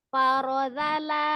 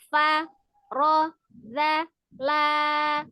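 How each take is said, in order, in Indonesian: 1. Suku-suku kata diucapkan bersambung dengan lancar tanpa jeda. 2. Setiap suku kata diucapkan terpisah, dengan jeda di antaranya. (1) "nanti dibales dengan disambung" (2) "mending kita pisah saja hurufnya"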